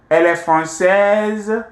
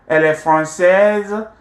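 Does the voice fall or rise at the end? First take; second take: rise; rise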